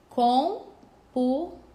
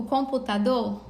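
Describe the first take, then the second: First: "Computador" slowly split as com-pu-ta-dor, loud; syllable by syllable. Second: Said in the usual way. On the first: Shown as a demonstration. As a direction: break "Computador" into four separated syllables, pausing between each. Teacher splits word into syllables. ("Computador" sílaba por sílaba, bem devagar: com-pu-ta-dor)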